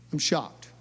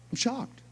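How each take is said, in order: First: Said in the usual way. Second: Higher, softer, awed I'm shocked; hushed, higher-pitched amazement. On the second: Real, not acted. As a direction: let the shock hang in the air.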